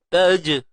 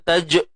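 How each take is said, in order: First: The final j bounces lightly and relaxed. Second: The final j bounces abruptly and sharply. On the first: The speaker calls it right. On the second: The speaker calls it wrong. "Jangan terkejut-terkejutkan bunyi dia"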